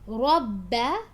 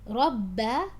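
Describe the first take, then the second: Both takes have the same delivery.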